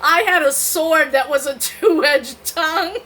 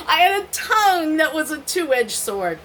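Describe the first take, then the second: First: Laughing flub. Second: Said in the usual way. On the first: Shown as a demonstration. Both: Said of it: "let me try that again".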